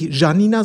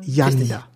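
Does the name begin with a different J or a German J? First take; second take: different J; German J. First: The name begins with a non-German J sound. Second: The name begins with a German J sound. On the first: The speaker calls it wrong. "nicht Janina" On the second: The speaker calls it right. "sondern Janina. ... mit einem richtigen J"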